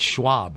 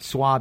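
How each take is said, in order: First: The name begins with an sh sound. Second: The name begins with a plain s sound. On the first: The speaker calls it right. "But Schwab" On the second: The speaker calls it wrong. "Not Swab as in Swabby"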